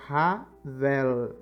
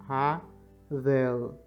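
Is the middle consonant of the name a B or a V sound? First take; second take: V; V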